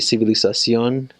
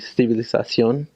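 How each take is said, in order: First: The z is pronounced like an s. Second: The z is pronounced like a th. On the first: "in Mexico Spanish, you would just the Z just sounds like an S" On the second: "But then in Spain, ... Castellano"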